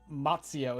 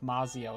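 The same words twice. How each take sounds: First: The z is said like a 'tz' sound. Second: The z is said as a plain z sound.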